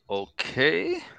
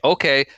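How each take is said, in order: First: It is said doubtfully, like a questioning check. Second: It is said as plain, ready agreement. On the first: The speaker questions whether the other is sure. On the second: The speaker accepts the request.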